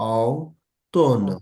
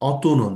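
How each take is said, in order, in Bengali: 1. এটি 'ton'-এর আগে আলাদা 'o-u' দিয়ে শুরু। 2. এটি সাধারণ, মিশে যাওয়া 'o' দিয়ে শুরু। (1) "আগে এটাকে আলাদা করেন" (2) "অতনও না"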